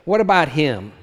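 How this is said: The question sounds resentful and jealous. Envy that the other may be spared the cost. "A question born more of envy or jealousy than charitable concern"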